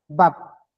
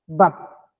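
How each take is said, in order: First: The word is said on a low tone. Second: The word is said on a low tone.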